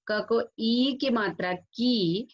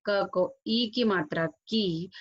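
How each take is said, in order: First: ई and की stretched, slightly raised; long i. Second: ई and की said with the shorter vowel. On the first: Teacher showing a vowel sign, long i. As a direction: draw out the vowel in ई and की, slowly spelling it out. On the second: Teacher showing a vowel sign, short i. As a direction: keep the vowel in ई and की short, slowly spelling it out. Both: Shown as a demonstration. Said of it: "आपको example के तौर पे".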